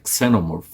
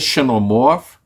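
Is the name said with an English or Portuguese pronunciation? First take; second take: English; Portuguese. First: It is pronounced with English sounds. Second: It is pronounced with Brazilian Portuguese sounds. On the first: "Se fosse pronunciar em inglês" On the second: "na nossa pronúncia"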